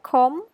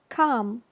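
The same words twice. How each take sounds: First: The vowel sounds like an 'oh'. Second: The vowel sounds like an 'ah'. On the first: The speaker calls it wrong. "You pronounce it like come with O" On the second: The speaker calls it right. "you should pronounce it like ah"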